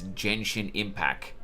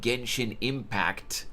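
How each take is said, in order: First: The final T of the last word is dropped. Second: The final T of the last word is pronounced. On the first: The speaker calls it wrong. "she pronounced the, the game's name as" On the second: The speaker calls it right. "with T at the end of the impact"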